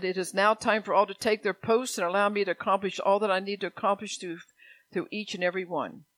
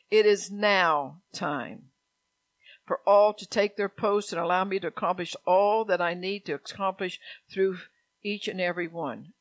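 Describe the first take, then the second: First: Prophecy reading. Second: Emphatic rereading. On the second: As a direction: proclaim it deliberately, loud on the opening phrases. Rereads prophecy with deliberate emphasis. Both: Real, not acted.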